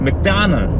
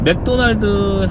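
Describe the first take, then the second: First: It is said with an English pronunciation. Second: It is said with a Korean pronunciation. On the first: "원래 발음은 맥다널 맥다날인데" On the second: "우리 한국 사람은 맥도날드라고 하잖아요"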